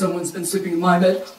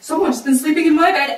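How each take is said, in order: First: It is said in a Papa Bear voice. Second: It is said in a Mama Bear voice.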